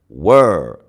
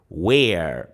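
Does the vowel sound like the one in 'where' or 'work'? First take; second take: work; where. First: The vowel sounds like the one in 'work'. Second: The vowel sounds like the one in 'where'. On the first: The speaker calls it right. "It's pronounced were, the same way you pronounce the word work" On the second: The speaker calls it wrong. "Some people pronounce it where, but that's not the correct pronunciation"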